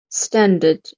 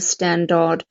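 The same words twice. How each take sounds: First: The second syllable has a weak schwa. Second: The second syllable has a full vowel. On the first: The speaker calls it right. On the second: The speaker calls it wrong.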